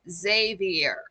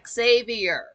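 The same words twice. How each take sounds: First: The name begins with a 'z' sound. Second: The name begins with an 'ex' sound. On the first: The speaker calls it right. "it's pronounced like a Z" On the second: The speaker calls it wrong. "you can tell when someone is illiterate"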